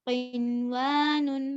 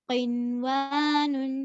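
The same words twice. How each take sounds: No difference in how they are said.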